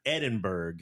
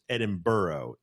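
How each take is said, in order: First: "Edinburgh" with a final "burg", hard g; spelled-out mispronunciation. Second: "Edinburgh" as "Edin-burro"; local pronunciation. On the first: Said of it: "is pronounced Edinburgh, even though". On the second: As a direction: say "Edinburgh" ending in "burro", no hard g. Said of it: "is pronounced Edinburgh". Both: Shown as a demonstration.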